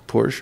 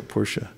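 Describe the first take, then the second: First: "Porsche" said softly as "porsh"; soft "Porsche", one syllable ending on sh. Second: "Porsche" said softly as "POR-sha"; soft "Porsche", two syllables ending in -sha. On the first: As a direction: say "Porsche" quietly, without the final vowel. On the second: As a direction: quietly add an uh ending to "Porsche". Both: Shown as a demonstration. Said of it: "Is it Porsche or Porsche?".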